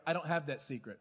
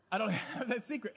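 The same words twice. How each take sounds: First: Said in the usual way. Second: Laughing through the line; admitting with a laugh. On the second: Real, not acted. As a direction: chuckle mid-sentence, quicker. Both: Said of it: "And we laugh".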